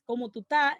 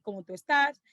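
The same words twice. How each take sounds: First: ¿cómo tú estás? clipped to cómo tú 'tá, s and es dropped; dropped-s Dominican form. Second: Said in the usual way. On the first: Shown as a demonstration. Teacher demonstrates the capital's dropped-s greeting, relaxed. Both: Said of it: "en vez de decir".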